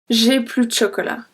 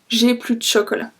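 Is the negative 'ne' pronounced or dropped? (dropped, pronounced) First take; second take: dropped; dropped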